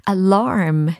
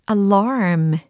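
No difference in how they are said.

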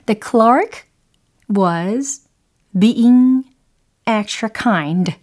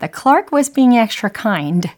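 First: It is said very slowly. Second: It is said at natural speed.

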